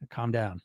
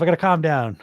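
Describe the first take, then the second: First: Much lower and much softer, calming himself; self-soothing murmur. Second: Said in the usual way. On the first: Real, not acted. Coach quietly tells himself to settle down. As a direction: murmur "Calm down" to yourself, low and hushed. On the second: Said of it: "I get all worked up".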